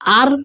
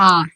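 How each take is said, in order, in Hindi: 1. अंतिम r की ध्वनि पूरी तरह बोली जाती है। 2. अंतिम r की ध्वनि अगले स्वर में मिल जाती है। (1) "आर नहीं है" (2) "र का कंप्लीट ऐसे र नहीं बोला जाता है, आ हो जाता है"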